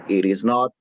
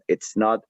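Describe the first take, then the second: First: Each word is said separately in full. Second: The first two words merge into one syllable.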